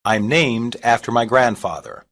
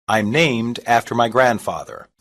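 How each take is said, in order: Both takes have the same delivery.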